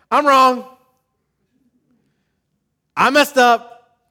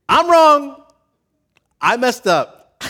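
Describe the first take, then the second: First: High, loud and slowed confession; mock loud confession. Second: Very high, loud forced admission; strained confession. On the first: Pastor voicing churchgoers admitting they're wrong, loudly. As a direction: belt out the admission of guilt. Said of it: "you guys like to say". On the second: Retold or imitated. Pastor voicing reluctant churchgoers forcing out an admission, straining. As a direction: squeeze the words out like it hurts. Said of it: "doesn't come naturally to say".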